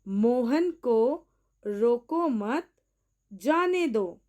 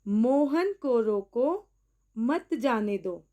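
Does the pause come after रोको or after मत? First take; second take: after मत; after रोको. First: There is a pause after मत. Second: There is a pause after रोको.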